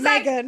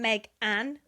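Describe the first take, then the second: First: The name is said as one joined word. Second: The name is said as two separate words. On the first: The speaker calls it wrong. "Not Megan" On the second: The speaker calls it right. "Two separate names"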